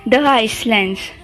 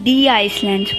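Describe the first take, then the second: First: The article is said with a short 'thuh' sound. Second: The article is said with a long 'thee' sound. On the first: The speaker calls it wrong. "लिखा जाता है द" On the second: The speaker calls it right. "इसको हम दी islands बोलेंगे"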